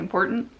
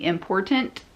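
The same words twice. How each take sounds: First: The middle t is dropped or swallowed. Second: The middle t is pronounced clearly. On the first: The speaker calls it right. "we say important" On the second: The speaker calls it wrong. "like enunciating important"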